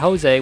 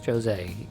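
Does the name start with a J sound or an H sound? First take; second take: H sound; J sound. First: The name begins with an H sound. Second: The name begins with a J sound. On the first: The speaker calls it wrong. "It's not Jose with a, a an H sound" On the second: The speaker calls it right. "his name is Jose"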